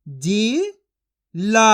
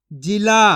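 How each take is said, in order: First: जिला stretched slowly with a rising end; slow drawn-out sounding. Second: Said in the usual way. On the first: Shown as a demonstration. Teacher stretching जिला slowly for children to copy. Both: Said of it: "मैं किस तरीके से एक एक अक्षर का उच्चारण करके".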